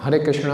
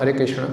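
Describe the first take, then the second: Both takes have the same delivery.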